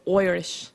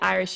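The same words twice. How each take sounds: First: The word is said with an Irish 'oi' sound. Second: The word is said in a plain accent.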